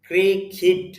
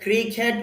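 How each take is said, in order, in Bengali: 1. দ্বিতীয় স্বরধ্বনিটি 'ih' এর মতো উচ্চারিত হয়। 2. দ্বিতীয় স্বরধ্বনিটি 'eh' এর মতো উচ্চারিত হয়। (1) "আপনি যদি ইংরেজি উচ্চারণ করেন তখন ক্রিকেট হবে না, ক্রিকিট" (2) "আসলে ক্রিকেট উচ্চারণটা হলো বাংলা উচ্চারণ"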